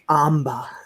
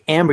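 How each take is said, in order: First: The word ends in a vowel, without r. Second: The word ends with a pronounced r sound. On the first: "I like the way that um Peaches says amba" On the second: "You don't you don't say amber"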